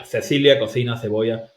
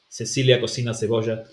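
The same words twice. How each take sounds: First: Cecilia cocina cebolla with every C as th; Castilian th. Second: Cecilia cocina cebolla with every C as S; the Latin American take, hissed S on each C. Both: Shown as a demonstration.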